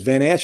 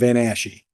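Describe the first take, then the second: First: The name ends without an extra final syllable. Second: The name ends with an extra final syllable. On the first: "I've heard your name two different ways" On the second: "You guys say it with, you know, extra syllable"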